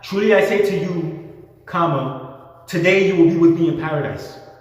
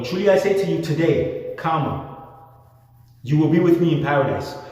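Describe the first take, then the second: First: The pause comes before the word today. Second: The pause comes after the word today.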